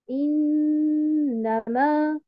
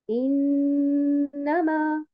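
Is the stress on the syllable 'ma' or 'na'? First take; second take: ma; na. First: The stress falls on the syllable 'ma'. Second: The stress falls on the syllable 'na'. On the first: The speaker calls it wrong. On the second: The speaker calls it right.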